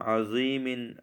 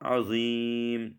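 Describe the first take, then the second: First: The word ends with a short vowel and n. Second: The word ends on a bare m consonant. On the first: The reader continues without stopping. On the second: The reader stops on this word.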